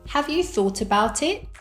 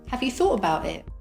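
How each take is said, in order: First: Each word is said separately and fully. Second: The words are linked and reduced together. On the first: "without connected speech" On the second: "with connected speech"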